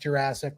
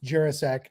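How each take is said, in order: First: It is said like the dinosaur-era word. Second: It is said unlike the dinosaur-era word. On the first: The speaker calls it wrong. "not Jurassic, like the time of the dinosaurs" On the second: The speaker calls it right. "name is pronounced Jurasek"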